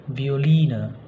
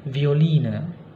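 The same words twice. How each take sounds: No difference in how they are said.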